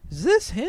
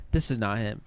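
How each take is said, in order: First: High, loud challenge; mock disbelief, jumping high and louder; incredulous mock question. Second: Said in the usual way. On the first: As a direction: act out pressing him, pitched way up. Acting out argument over a video.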